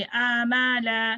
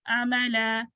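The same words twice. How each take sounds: First: अमला slow, opening vowels dragged long; wrongly lengthened vowels. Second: अमला with quick short opening vowels. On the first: Teacher shows students the mistake, over-long अमला. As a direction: stretch each vowel in अमला too far. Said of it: "इसको ऐसे नहीं पढ़ेंगे". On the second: Teacher corrects the mistake, short-vowelled अमला. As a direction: keep the first vowels of अमला brief. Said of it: "short vowel". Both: Shown as a demonstration.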